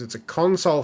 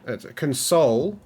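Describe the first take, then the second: First: The stress is on the first syllable. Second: The stress is on the second syllable. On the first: A piece of hardware for the device. "it's a console for the Surface" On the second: Offering comfort to the device. "I'm sorry for the Surface"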